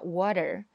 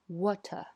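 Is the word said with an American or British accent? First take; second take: American; British. First: It is said with an American accent, r pronounced. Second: It is said with a British accent, r silent. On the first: "美式英语叫water" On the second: "那英式英语呢water"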